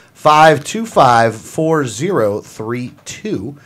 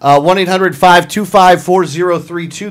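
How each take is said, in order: First: Slow, soft number read-back; slow repeat. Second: Said in the usual way. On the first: Shown as a demonstration. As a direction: spell out each digit slowly. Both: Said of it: "That's one eight hundred".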